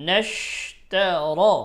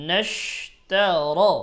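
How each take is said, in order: No difference in how they are said.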